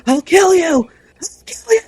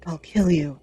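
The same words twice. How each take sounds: First: High, loud, repeated screamed threat; mock scream. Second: Said in the usual way. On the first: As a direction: scream it like he's thrashing in his sleep. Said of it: "screaming, "I'll kill you".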